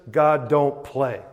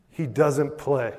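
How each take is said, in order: First: Slow, blunt colloquial English; common English. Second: Said in the usual way. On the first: Shown as a demonstration. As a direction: put it in everyday English, drawn out. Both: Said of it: "say it in kind of a common English".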